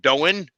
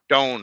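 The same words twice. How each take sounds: First: The name is said with two syllables. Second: The name is said with one syllable. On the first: The speaker calls it wrong. "I'm going to pronounce it wrong" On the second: The speaker calls it right. "One syllable"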